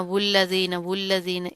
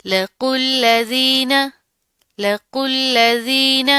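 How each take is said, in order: First: "वुल्लज़ीन" wrongly starting on a w sound, low; low, soft "वुल्लज़ीन" with w in place of qaf; wrong reading. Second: "लकुल्ल ज़ीन" slow, thick q straight into thin l; measured "लकुल्ल ज़ीन", waw silent, q full; correct heavy qaf. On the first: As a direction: show the mistake: sound the silent waw in "वुल्लज़ीन". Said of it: "इसको इस तरह नहीं पढ़ना". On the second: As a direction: chant "लकुल्ल ज़ीन" with no w, long "ज़ीन". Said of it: "इस लाम को मोटा नहीं करना". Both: Shown as a demonstration.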